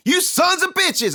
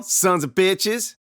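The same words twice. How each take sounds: First: High, loud and slow furious yell; angry shout. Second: Drawn-out, loud defiant taunt; slow taunt. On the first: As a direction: yell it at the pranksters. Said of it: "I cried". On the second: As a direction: spit it out slowly at them. Kid taunting brothers. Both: Acted.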